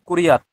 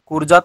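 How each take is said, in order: First: The middle consonant sounds like y. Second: The middle consonant sounds like j. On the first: The speaker calls it right. "কুরিয়াত। সংস্কৃত তো" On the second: The speaker calls it wrong. "কুরজাত নয়"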